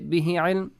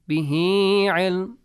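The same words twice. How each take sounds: First: The final vowel of bihi is short. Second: The final vowel of bihi is lengthened. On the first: The speaker calls it wrong. "You don't say bihi ilm" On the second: The speaker calls it right. "You extend it a bit"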